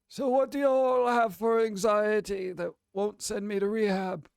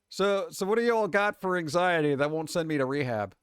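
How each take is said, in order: First: It is said in a put-on Dumbledore voice. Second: It is read in a natural voice.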